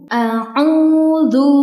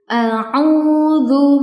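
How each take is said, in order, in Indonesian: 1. Konsonan terakhir adalah bunyi dh yang lembut. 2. Konsonan terakhir adalah bunyi dh yang lembut.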